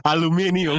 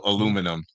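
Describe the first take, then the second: First: Aluminium as al-oo-MIN-ee-um; British-style pronunciation. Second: Aluminum as uh-LOO-muh-num; American pronunciation. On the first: Laughing reply to a friend, five-syllable Aluminium. Countering with the British-African form. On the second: Example of a word Africans miss, American aluminum. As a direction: say aluminum in four syllables, American way. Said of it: "certain words that I don't expect Africans to get". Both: Shown as a demonstration.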